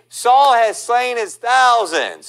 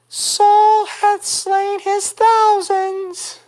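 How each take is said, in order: First: The voice is deeper and fuller. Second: The voice is higher and lighter.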